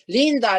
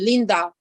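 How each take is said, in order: First: The stress is on the first syllable. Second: The stress is on the last syllable. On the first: This is the native way of saying the name. "but Linda" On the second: This is the French way of saying the name. "in French, of course, you'd say Linda"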